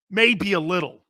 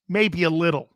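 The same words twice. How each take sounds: The two takes are said the same way.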